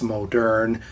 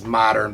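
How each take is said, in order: First: It sounds like the French-style form moderne. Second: It sounds like the everyday English word modern. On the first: The speaker calls it right. "it's M O D E R N E. So most people agree that it's modern" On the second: The speaker calls it wrong. "it gets mispronounced a lot as modern"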